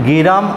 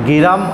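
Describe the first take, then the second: Both takes have the same delivery.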